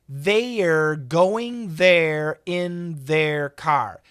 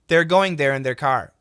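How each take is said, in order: First: The first word is stretched into two syllables. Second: The first word is one syllable, said fast. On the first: "like two syllables" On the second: "if I say it fast"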